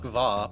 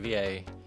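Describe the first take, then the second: First: It is said as a single syllable. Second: It is said as two separate letters. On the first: The speaker calls it wrong. "I guess Snuck Va" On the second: The speaker calls it right. "obviously V A. If it's capital letters"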